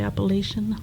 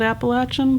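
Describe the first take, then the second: First: The third syllable has a long A vowel. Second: The third syllable has a short a vowel. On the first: This is how people from outside the region say it. "I have heard people say Appalachian" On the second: This is how people from the region say it. "I always said Appalachian"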